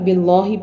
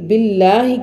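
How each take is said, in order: First: The l in Allah sounds full and heavy. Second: The l in Allah sounds thin and light. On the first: The speaker calls it wrong. "लाम को यहाँ पर पुर कर देना" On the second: The speaker calls it right. "ये बारीक है"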